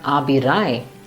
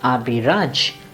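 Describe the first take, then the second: First: The name ends with a 'y' sound. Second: The name ends with a 'j' sound. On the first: The speaker calls it wrong. "most Germans pronounce it as Abirai" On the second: The speaker calls it right. "but Abhiraj"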